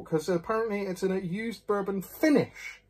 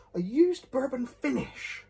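First: Said in the usual way. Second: Puzzled echo. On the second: Real, not acted. Puzzled by the label.

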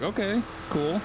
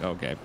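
First: Bright, high, impressed okay cool; pleased by a first sighting. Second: Low, flat unimpressed okay; bored. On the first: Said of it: "I was like". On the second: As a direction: sound totally over it. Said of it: "And then now it's just like". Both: Retold or imitated.

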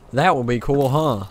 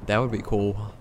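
First: Much louder, punched-up musing; loud exclamation. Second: Said in the usual way. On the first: Real, not acted. Gamer musing aloud to viewers, loud and emphatic. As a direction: belt it out over the game. Repeats it loudly in game.

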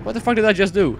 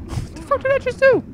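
First: Said in the usual way. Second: Laughing disbelief. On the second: Real, not acted. Laughing repeat after near drowning.

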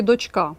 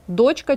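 First: "дочка" stressed on final КА; stress on last syllable. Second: "Дочка" stressed on ДОЧ; stress on first syllable. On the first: Teacher offers second choice, stressing дочКА. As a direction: lean on the ending: дочКА. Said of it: "Наголос, запам'ятайте, на «а»". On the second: Teacher offers first choice, stressing ДОЧка. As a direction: hit the start: ДОЧка. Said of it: "чи". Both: Shown as a demonstration.

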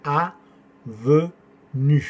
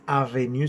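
First: "avenue" very slow, a-ve-nue, rounded French vowels; "avenue" with rounded middle e and pursed final u; correct French pronunciation. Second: "avenue" quick, with a clear Spanish-like e; wrong pronunciation. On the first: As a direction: stretch "avenue" into three separate syllables. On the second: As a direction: say "avenue" as ah-veh-nyu, the mistaken way. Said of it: "No es avenue". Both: Shown as a demonstration.

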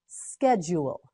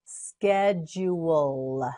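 First: Said in the usual way. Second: "Schedule" slowly as sked, jool; syllable by syllable. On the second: Shown as a demonstration. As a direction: stretch each syllable of "Schedule". Teacher models word slowly.

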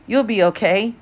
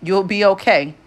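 First: Forced upbeat reassurance, a bit higher; fake cheerfulness. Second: Louder, firm insistence on okay. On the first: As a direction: pretend it's fine, masking worry. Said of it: "with a fake cheerfulness". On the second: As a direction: say it like a promise, no doubt. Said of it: "I repeated firmly". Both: A narrator's reading.

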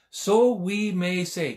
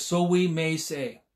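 First: Slow emphatic. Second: Said in the usual way. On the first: Shown as a demonstration. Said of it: "Can you say that today?".

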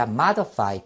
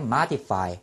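First: Modify with a schwa in the middle, MA-duh-fai; pronunciation variant. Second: Modify with a short "i" in the middle, MA-di-fai; pronunciation variant. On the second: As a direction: say modify as "MAH-dih-fai". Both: Shown as a demonstration. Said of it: "두 가지 발음".

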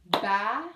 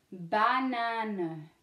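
First: Banane in three separate beats, BA - NA - NE; syllable by syllable. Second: Said in the usual way. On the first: Shown as a demonstration. Teacher claps out the word for pupils, Banane split into syllables. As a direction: clap out Banane with a gap after each syllable. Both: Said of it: "let's clap it out in our syllabes".

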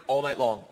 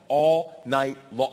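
First: Said in the usual way. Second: ALL NIGHT LONG, very slow, word by word; "all ... night ... long", each word dragged out; drawn-out emphasis. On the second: Shown as a demonstration.

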